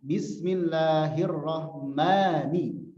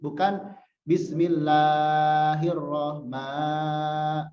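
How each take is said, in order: First: "Bismillahirrahmani" drawn out slowly, a held two counts; two beats long. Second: "bismillahirrahma-" stretched far too long, very slow; overlong. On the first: Teacher showing two harakat length. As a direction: hold the long vowel exactly two counts. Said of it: "Dan dua harokat". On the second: Teacher showing the overlong mistake. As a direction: drag the vowel on past its count. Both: Shown as a demonstration.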